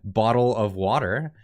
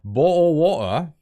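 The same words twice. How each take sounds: First: It is said in a non-British accent. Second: It is said in a British accent. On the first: "how the rest of us pronounce it" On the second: "the British pronunciation for the same words"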